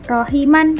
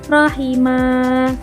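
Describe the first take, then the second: First: The word ends with an n sound. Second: The word ends with a lengthened vowel. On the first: The speaker calls it wrong. "bukan rohiman" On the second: The speaker calls it right. "tapi rohimah"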